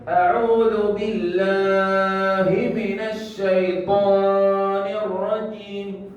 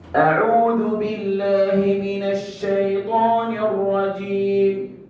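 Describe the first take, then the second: First: The vowels are drawn out long. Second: The vowels are kept short. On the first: The speaker calls it wrong. "Panjangnya ini kenapa?" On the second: The speaker calls it right. "Dipotong saja"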